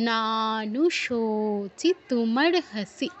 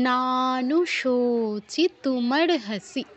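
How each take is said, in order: Both takes have the same delivery.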